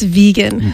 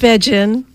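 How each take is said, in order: First: The first syllable sounds like 'vee', as in see. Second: The first syllable sounds like 'vay', as in Vegas. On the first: The speaker calls it right. "It's vegan" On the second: The speaker calls it wrong. "Not vegan"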